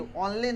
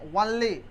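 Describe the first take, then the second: First: The word begins with a plain 'o' vowel. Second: The word begins with a 'w' glide. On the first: The speaker calls it wrong. "ओनली नहीं" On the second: The speaker calls it right.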